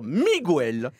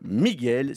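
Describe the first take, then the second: First: The u is pronounced after the g. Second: The u is silent, giving a hard g. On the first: The speaker calls it wrong. "Depuis quand un G et un U, ça fait Gu?" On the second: The speaker calls it right. "J'ai bien dit Miguel, je répète Miguel"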